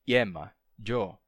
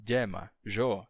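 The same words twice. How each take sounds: The two takes are said the same way.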